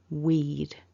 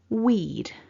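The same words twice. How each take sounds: First: It is said as one short syllable. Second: It is said as one short syllable.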